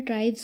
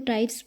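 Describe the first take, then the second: First: The word ends with a z sound. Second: The word ends with an s sound. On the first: The speaker calls it right. "जबकि ये हमारा ट्राइब्स होता है" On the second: The speaker calls it wrong. "यहाँ ना हम एस देखते हैं तो इसको ट्राइब्स पढ़ते हैं"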